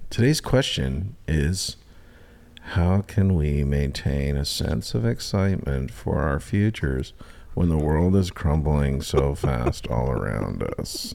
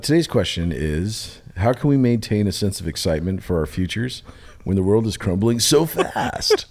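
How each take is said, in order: First: It is read in a flat, monotone voice. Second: It is read in a lively, varied voice.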